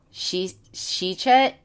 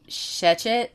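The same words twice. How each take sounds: First: Shechet? dibaca "SHEE-chet", suku pertama dengan i panjang, nada naik ragu; Shechet? sounded out as SHEE-chet, first vowel long ee, rising and unsure; trying the name. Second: Shechet? said as SHEH-chut, short e then a reduced second vowel, rising; "Shechet?" ucapkan SHEH-chut, e pendek, akhir naik bertanya; second try at the name. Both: Shown as a demonstration. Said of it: "I don't wanna ruin this last name".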